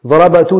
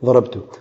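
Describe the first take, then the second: First: The b sound is followed by a vowel. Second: The b sound carries no vowel. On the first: The speaker calls it wrong. "ضرب تو نہیں کہہ سکتے" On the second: The speaker calls it right. "اب کہتے ہیں سکون ہے"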